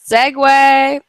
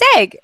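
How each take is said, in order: First: It is said as two syllables, ending 'way'. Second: It is said as one short syllable. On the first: The speaker calls it right. "it's Segway, like the thing you ride" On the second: The speaker calls it wrong. "Is it just seg?"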